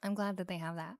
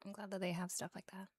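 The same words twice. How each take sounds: First: Said in the usual way. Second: Hushed, whispery ASMR echo; much softer, breath-light delivery; soft repeat. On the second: Real, not acted. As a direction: let it sink into a whisper.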